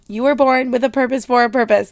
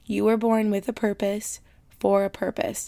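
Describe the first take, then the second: First: It is yelled loudly with strong force. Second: It is said at a normal speaking volume. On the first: "I feel like I need to yell it at you so that you feel it" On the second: "I'm gonna say it again in case you weren't listening"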